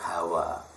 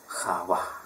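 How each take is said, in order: First: It begins with a soft plain h. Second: It begins with a rough throaty sound. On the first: This is the usual Indonesian form of the name. The speaker calls it wrong. "tapi dituliskan Hawa" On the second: This is the original form of the name. The speaker calls it right. "aslinya pakai khat"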